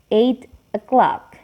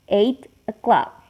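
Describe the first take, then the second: First: The t is clear, with a break before o'clock. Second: The same.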